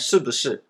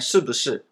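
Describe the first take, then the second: First: The middle syllable is said in neutral tone. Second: The same.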